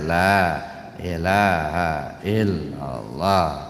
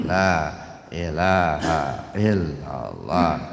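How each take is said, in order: The two takes are said the same way.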